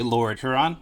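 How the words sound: Huron gets a Michigan American pronunciation. This is how locals in Michigan say the name. "being from Michigan, I would say"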